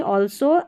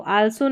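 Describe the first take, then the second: First: "also" opening on a rounded "awl"; "also" with an AW first vowel; correct pronunciation. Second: "also" with an A, "al-so"; "also" opening on an unrounded "al"; wrong pronunciation. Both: Shown as a demonstration. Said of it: "also नहीं".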